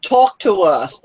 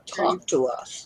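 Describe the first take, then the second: First: Said in the usual way. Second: Drawn out, low and slow; low slow drawl. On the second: Acted. Teasing a silent guest.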